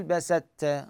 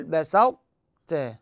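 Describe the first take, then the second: First: بسطت said with plain ت and no emphatic ط, slowly; slow بسطت with the ط lost; wrong pronunciation. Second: بسطت with an emphatic ط held before ت, very slow; correct pronunciation. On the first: Teacher warning students off the error, slow wrong بسطت. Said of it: "غلط". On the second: Teacher repeating the right form for students, very slow correct بسطت. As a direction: draw out بسطت so the ط stays emphatic. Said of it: "هذا الطاء بإطباق". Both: Shown as a demonstration.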